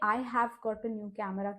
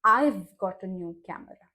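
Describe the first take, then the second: First: I have is said as two full words. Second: I have is shortened into one syllable. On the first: The speaker calls it wrong. "के बजाय" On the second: The speaker calls it right. "बोलते वक्त कहना है"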